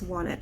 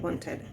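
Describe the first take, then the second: First: The ending sounds relaxed and natural. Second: The ending sounds careful and less natural. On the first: The speaker calls it right. "it's wanted" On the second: The speaker calls it wrong. "and not wanted"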